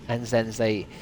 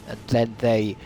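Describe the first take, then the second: No difference in how they are said.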